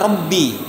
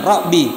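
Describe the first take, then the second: First: The b sound is held and doubled. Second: The b sound is short and single. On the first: The speaker calls it right. "seharusnya Rabbi, ba ditasydid" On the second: The speaker calls it wrong. "dia menghilangkan tasydid pada ba"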